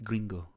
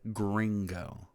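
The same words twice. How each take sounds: First: The word is said with lively Spanish intonation. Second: The word is said flatly, with an English sound. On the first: The speaker calls it right. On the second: The speaker calls it wrong. "Very flatly like that, like I just pronounced it"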